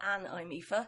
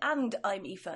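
First: The final D of 'and' is dropped. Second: The final D of 'and' is clearly pronounced. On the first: The speaker calls it wrong. "not an I'm Aoife" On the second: The speaker calls it right. "I meant and I'm Aoife"

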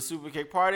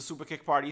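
First: It is said with strong, energetic emphasis. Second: It is said flatly, without extra emphasis.

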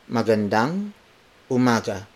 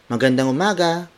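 First: It is said in a plain, neutral tone. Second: It is said in a cheery, bright tone.

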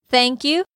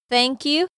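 No difference in how they are said.

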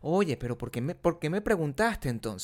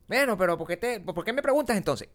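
First: It is said in a mild, gentle tone. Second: It is said in a harsh, snappy tone.

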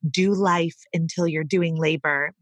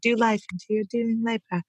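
First: It is said in the speaker's ordinary accent. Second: It is said in an Australian accent.

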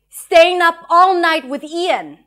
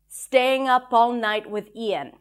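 First: The line is said with strong, charged feeling. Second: The line is said calmly, without much feeling.

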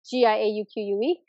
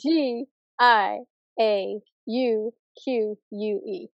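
First: The letters are spelled out quickly. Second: The letters are spelled out slowly.

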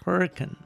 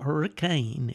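First: The name is said the local way. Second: The name is said the common, everyday way. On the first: The speaker calls it right. "It's Hurricane" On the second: The speaker calls it wrong. "It's not Hurricane"

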